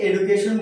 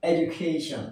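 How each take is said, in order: First: "এডুকেশন" said as "e-du-ke-shon", hard d; common mispronunciation. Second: "এডুকেশন" said as "ej-u-KAY-shn"; proper pronunciation. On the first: Teacher showing what we usually say, "এডুকেশন" as e-du-ke-shon. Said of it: "আমরা এটাকে এডুকেশন বলি". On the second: Teacher giving learners the proper form, "এডুকেশন" as ej-u-KAY-shn. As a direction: say "এডুকেশন" with a j sound for the d. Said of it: "proper উচ্চারণটা হচ্ছে". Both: Shown as a demonstration.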